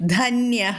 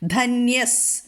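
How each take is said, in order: First: The word ends in a breathy h sound. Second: The word ends in an s sound. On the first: The word stands alone. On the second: The word joins the following word.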